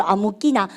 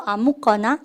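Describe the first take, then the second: First: Daegu dialect. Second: Seoul dialect. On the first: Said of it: "대구말로". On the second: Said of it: "서울말로". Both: Shown as a demonstration.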